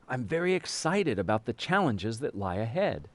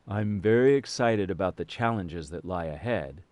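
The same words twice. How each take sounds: First: The voice is lively with varied pitch. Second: The voice is flat with little variation. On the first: The speaker calls it right. "We tend to say these words to reflect their meaning, which means we vary our voice" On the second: The speaker calls it wrong. "You wouldn't say"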